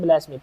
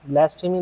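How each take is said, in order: First: The middle f sound is left out. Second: The middle f sound is clearly pronounced. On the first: The speaker calls it right. "पी एस silent है उसमें" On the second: The speaker calls it wrong. "ब्लैस्फेमी नहीं बोलते"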